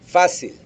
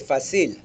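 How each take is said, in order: First: The stress is on the first syllable. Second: The stress is on the last syllable. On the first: The speaker calls it right. "stress the syllable in which the tilde or slash mark occurs" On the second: The speaker calls it wrong. "If I didn't have that slash over the A, I would have to say"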